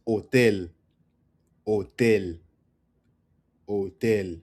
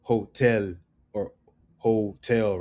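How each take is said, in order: First: Hotel said oh-TEL; silent H. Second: Hotel said hoh-tel, English style; sounded H. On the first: Teacher correcting the mistake, "hotel" with silent H. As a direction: start "hotel" straight on the O. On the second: Teacher showing what to avoid, "hotel" with sounded H. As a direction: breathe the H in "hotel". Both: Shown as a demonstration. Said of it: "It's not hotel".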